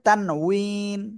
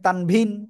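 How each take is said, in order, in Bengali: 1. মাঝের ব্যঞ্জনধ্বনিটি একটি w ধ্বনি। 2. মাঝের ব্যঞ্জনধ্বনিটি একটি v ধ্বনি। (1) "আসল উচ্চারণ হবে তানউইন" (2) "অনেকে বলে তানভিন"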